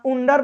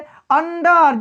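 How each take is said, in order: First: The word begins with an 'oo' sound. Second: The word begins with a short 'uh' sound. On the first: The speaker calls it wrong. "उम्ब्रेला या उंडर मत पढ़िएगा" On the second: The speaker calls it right. "अंडर अ से उच्चारण हो रहा है"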